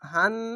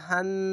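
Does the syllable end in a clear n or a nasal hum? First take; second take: clear n; clear n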